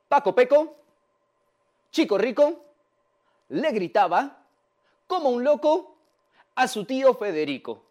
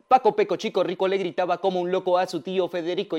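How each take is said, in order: First: It is said slowly, step by step. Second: It is said at a faster pace.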